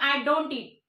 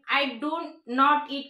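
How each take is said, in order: First: 'Do not' is contracted into one syllable. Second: 'Do not' is said as two full words.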